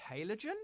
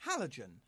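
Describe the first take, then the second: First: Halogen said HAY-lo-jen, rising; pronunciation. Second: Halogen said HAL-o-zhen, falling; pronunciation. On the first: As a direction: Halogen with long A, questioning. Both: Shown as a demonstration. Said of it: "we're having a tomato tomato moment".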